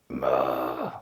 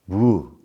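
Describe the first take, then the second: First: The word begins with an m sound. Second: The word begins with a w sound. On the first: This is the usual Japanese reading. "that's how everybody says it" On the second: This is the original Chinese reading. "What would we have said in Chinese?"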